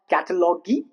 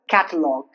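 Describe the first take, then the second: First: It ends with an added 'you' sound. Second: It ends without a 'you' sound. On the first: The speaker calls it wrong. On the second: The speaker calls it right. "rules where you remain silent, ending in G U E"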